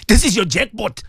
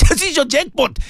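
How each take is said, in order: First: Said in the usual way. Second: Higher, with a laugh, delighted. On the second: Real, not acted. Preacher repeats his punchline to listeners, laughing. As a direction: say it again chuckling, tickled.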